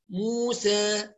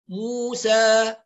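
First: The final vowel is slightly raised toward 'e'. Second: The final vowel is a fully open 'a'. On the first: "المقلل بقى يعني نقلل الفتح موسى" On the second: "اللي يفتح فتح محقق موسى"

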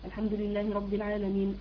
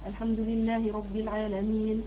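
First: It is recited at a fast pace. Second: It is recited at a medium pace. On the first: "الحذر كده قراءة سريعة" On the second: "التدوير قراءة وسط وسط"

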